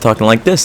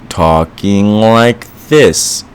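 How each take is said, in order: First: It is said quickly, sped up. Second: It is said slowly, dragging.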